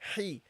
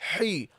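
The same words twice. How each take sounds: First: The h sound is light, from mid-throat. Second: The h sound is heavy and forceful. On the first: The speaker calls it right. "from the middle of the throat" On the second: The speaker calls it wrong. "Don't make it heavy. Don't say he"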